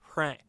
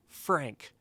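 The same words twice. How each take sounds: First: The first sound is not a clear F. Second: The first sound is a clear F. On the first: The speaker calls it wrong. "if I don't do that, it's kind of hard to say Frank" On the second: The speaker calls it right. "you'll put your teeth kind of at the edge of your lip like this"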